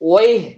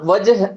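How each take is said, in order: First: It is said as 'wayh', Kuwaiti style. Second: It is said as 'wajh', Saudi style. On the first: "ஒரு குவைத்தியா இருந்தா ஒய்" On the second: "சவுதியா இருக்கட்டும், இது எப்படி சொல்லுவாங்கன்னா வஜ் அப்படிங்கறத என்ன பண்ணுவாங்க? பயன்படுத்துவாங்க"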